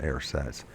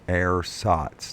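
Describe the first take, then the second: First: The first syllable sounds like 'ur'. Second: The first syllable sounds like 'ours'. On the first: The speaker calls it wrong. "not ersatz" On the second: The speaker calls it right. "It's ours"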